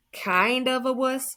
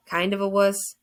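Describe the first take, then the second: First: High, drawn-out mocking repeat; incredulous mockery. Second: Teasing repeat, punchy WUSS; mocking echo. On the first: Dead friend teasing the tearful boy, incredulous. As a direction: stretch it out high in mock disbelief. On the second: Dead friend echoes the boy's confession, mocking. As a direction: toss the phrase back in disbelief.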